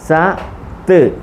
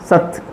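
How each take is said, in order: First: The two syllables are said apart with a pause. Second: The two syllables are joined quickly without pause.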